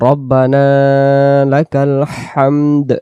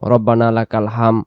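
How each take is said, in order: First: The last word ends with a clear d sound. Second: The last word ends without any d sound. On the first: The speaker calls it right. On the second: The speaker calls it wrong.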